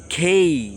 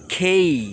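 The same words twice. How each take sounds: Both takes have the same delivery.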